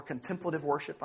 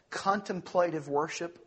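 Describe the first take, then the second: First: "contemplative" said kən-TEM-plə-tiv, stress on TEM; "contemplative" as con-TEM-pla-tive with a short "a"; "contemplative" in the con-TEM-plative form; second-syllable stress. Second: "contemplative" said KON-tem-PLAY-tiv, stress on KON, long PLAY; "contemplative" in the CON-tem-PLATE-ive form; first-syllable stress. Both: Shown as a demonstration. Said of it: "emphasis to put the syllable on".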